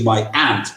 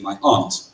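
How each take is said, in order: First: Aunt has a flat 'a' like ant. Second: Aunt has a broad 'ah' vowel. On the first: "over here you say my aunt, which for me is an insect" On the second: "I pronounce the opposite of uncle as aunt. I say my aunt"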